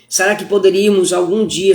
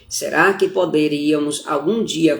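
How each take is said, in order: First: It is spoken at a normal pace. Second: It is spoken very slowly.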